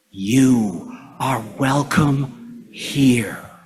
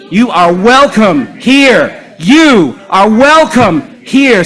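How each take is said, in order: First: Slow, tender, near-whispered welcome; with love. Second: Chanted, loud, high, slow rallying cry; chanted, belt it out so the room joins in; rousing chant. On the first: Leader telling the congregation to say it with love, tender hush. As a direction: breathe it out slowly and lovingly. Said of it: "Say it with love". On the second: Chanted, leader getting the congregation to say it along, rousing shout. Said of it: "with me". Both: Shown as a demonstration.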